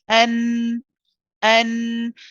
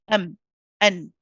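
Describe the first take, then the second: First: The nasal sounds are held for a moderate length. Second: The nasal sounds are cut off very short. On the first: The speaker calls it right. "we have the associated gunna with this letter when we when we say" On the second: The speaker calls it wrong. "I didn't say um and not like that"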